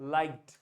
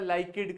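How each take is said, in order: First: The ending is a soft final consonant only. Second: The ending is said as an extra syllable. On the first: The speaker calls it right. "ड की ध्वनि आएगी" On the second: The speaker calls it wrong. "ना ही सरिता लाइकेड करके बोलना है"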